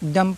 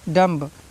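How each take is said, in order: First: The word ends without any b sound. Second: The word ends with an audible b sound. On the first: The speaker calls it right. "डम पढ़ेंगे" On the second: The speaker calls it wrong. "डम्ब नहीं पढ़ना है"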